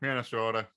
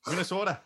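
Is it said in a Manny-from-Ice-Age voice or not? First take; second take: Manny voice; not Manny. First: It is said in a Manny from Ice Age voice. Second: It is said without the Manny-like voice.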